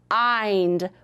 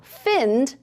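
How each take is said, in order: First: The vowel is a long I sound. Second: The vowel is a short i sound. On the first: The speaker calls it right. "let me try it with the I sound" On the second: The speaker calls it wrong. "We wouldn't say find, because that wouldn't make sense"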